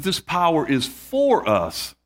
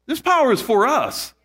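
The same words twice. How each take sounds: First: Said in the usual way. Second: This power is for us, pitched higher with the stress on "power"; emphatic restatement. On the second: Shown as a demonstration. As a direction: preach "power" hard and let "for us" fall. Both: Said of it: "I want to emphasize this word power".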